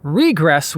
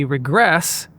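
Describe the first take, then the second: First: Regress stressed on the first syllable, RE-gress; noun stress. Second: Regress stressed on the second syllable, re-GRESS; verb stress. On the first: Narrator inventing the noun, regress stressed on first syllable. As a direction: punch RE in regress. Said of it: "would be the noun". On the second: Narrator explaining falling backward, regress stressed on second syllable. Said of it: "that's a verb". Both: Shown as a demonstration.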